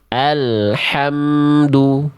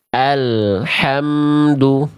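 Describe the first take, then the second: The two takes are said the same way.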